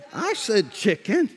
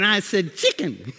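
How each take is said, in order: First: Said in the usual way. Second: Put-on "chicken" in a playful Mexican accent. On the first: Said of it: "No, I didn't". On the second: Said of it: "talking to me with an accent".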